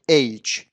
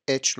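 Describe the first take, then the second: First: "اچ" as aych, with an ay glide; correct pronunciation. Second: "اچ" as etch, with a short e; wrong pronunciation. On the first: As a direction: say اچ as EYCH, like English H. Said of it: "تلفظ درست این حرف". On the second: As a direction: say اچ as ECH, no glide. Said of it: "لطفاً نخونید". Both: Shown as a demonstration.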